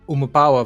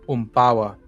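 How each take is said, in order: First: The full word is said with every vowel. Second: The word is reduced, dropping a vowel.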